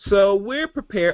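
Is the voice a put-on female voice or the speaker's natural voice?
natural. It is said in the speaker's natural voice.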